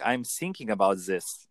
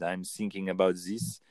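First: Thinking said as sinking, th turned to s; a coach showing an accent without th; th replaced by s. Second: Put-on thinking said as sinking in a German or French accent; light German or French accent, th turned to s; a coach imitating a German or French speaker without th. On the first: Shown as a demonstration. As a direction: swap every th for s or z. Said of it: "You might say s". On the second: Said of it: "German, or same in French".

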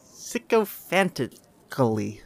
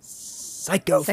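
First: "Sycophantically" slowly, piece by piece, opening SICK-oh; sounding out. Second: "Sycophantically" opening like "psycho"; altered pronunciation. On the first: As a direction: carefully sound out "Sycophantically" with a short i first. Sounding out a difficult word. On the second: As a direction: say "Sycophantically" with a long SIGH-koh start. Playing with a difficult word's pronunciation. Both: Shown as a demonstration.

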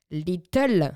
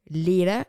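First: "little" overdone as "lee-tol"; loud, over-articulated "little" with a clear T; retry "little" emphatically, French-accented "lee-tol"; corrected English pronunciation. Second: "Little" loosely said as "lee-la"; doubtful English pronunciation. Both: Shown as a demonstration. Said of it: "il est peut-être douteux".

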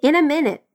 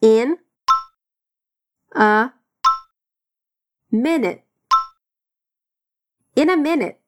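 First: In a minute run together as one smooth phrase; linked up. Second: In, a, minute each alone with pauses; slow separated drill of each word. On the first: Teacher linking In a minute after the split drill. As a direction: connect all the sounds of In a minute. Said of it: "Vamos conectar todos esses sons". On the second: Teacher drilling In a minute word by word. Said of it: "Bora repetir". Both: Shown as a demonstration.

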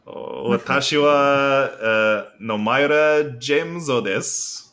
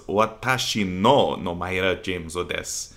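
First: Slow careful Japanese self-introduction with wa; speaking Japanese. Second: "Watashi no Nomaira Jameso desu" with "no" in place of "wa"; careful corrected line, "no" instead of "wa"; corrected Japanese. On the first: Asked by his podcast cohost, a slow Japanese self-introduction. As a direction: says "Watashi wa" then "Nomaira Jameso desu", slowly. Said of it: "I wanna hear [name] speak some Japanese". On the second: Future self correcting his grammar, corrected Japanese line. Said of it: "What I should have said there was". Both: Shown as a demonstration.

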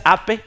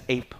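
First: "ape" in two syllables, "ah-peh"; wrong pronunciation. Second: "ape" as one syllable, "eyp"; correct English pronunciation. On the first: Teacher quoting the pupil's mistake, Spanish-style pronunciation. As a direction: say "ape" as Spanish spelling reads. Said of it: "ya no le digas". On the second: Teacher modelling the corrected word, English pronunciation. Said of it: "y le digas". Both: Shown as a demonstration.

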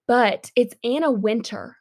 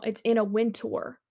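First: Wintour said like "winter", no tour ending. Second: Wintour with a clear "tour" ending, WIN-tor. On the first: Shown as a demonstration. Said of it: "when you say winter in a British accent". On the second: Retold or imitated. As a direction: say Wintour spelled out, win-TORE. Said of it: "you might be like".

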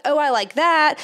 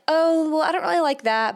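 First: Light, louder, pleased "Oh, I like that"; mild pleased approval. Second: A light, higher "Oh, well" of gentle dislike; politely turning it down; mild displeasure. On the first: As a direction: lift it with pleasure. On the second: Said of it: "you'll be able to say". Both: Pretend.

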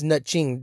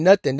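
First: "nothing" said as "nutching", ch replacing th; corrected to NUT-CHING. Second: Said in the usual way. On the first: Shown as a demonstration. Fan correcting the word for listeners, deliberate nutching. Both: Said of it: "you heard correctly".

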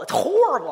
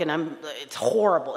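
First: Horrible stressed, much higher and louder; mock outraged complaint. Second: Said in the usual way. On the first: Griping about the friend's dumb book, hammed-up. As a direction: throw "horrible" up in mock disgust.

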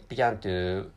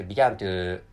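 Both takes have the same delivery.

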